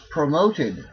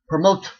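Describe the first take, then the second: First: The ending has a vowel before the d. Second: The ending has no vowel before the d. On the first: The speaker calls it right. "pronounce the vowel plus a soft D consonant" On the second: The speaker calls it wrong. "Try pronouncing it without putting a vowel in there"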